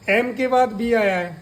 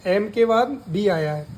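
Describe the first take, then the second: No difference in how they are said.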